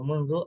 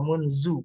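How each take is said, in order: First: The consonant is an interdental dh sound. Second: The consonant is a plain z sound. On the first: The speaker calls it right. "kalimat yang benar" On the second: The speaker calls it wrong. "yang salah itu"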